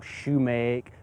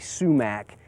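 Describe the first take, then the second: First: It starts with sh and ends in make. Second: It starts with s and ends in mack. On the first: "or shumake" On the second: "generally sumac is more accepted"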